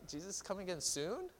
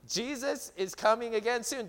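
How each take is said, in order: First: It is hesitant and rises like a question. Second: It is confident and falls like a statement.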